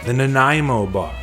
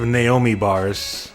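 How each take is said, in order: First: The name is said with its second 'n' sound. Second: The name is said without its second 'n' sound. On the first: The speaker calls it right. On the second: The speaker calls it wrong.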